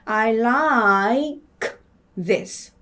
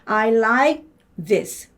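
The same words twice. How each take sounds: First: The phrase is said slowly. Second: The phrase is said at normal speed. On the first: "다시 천천히 읽으면" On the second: "근데 정상으로 읽으면"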